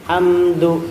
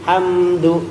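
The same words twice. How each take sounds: Both takes have the same delivery.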